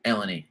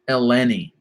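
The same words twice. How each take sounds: First: The 'le' syllable carries no special stress. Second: The 'le' syllable is clearly stressed.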